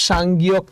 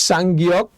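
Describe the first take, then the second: Both takes have the same delivery.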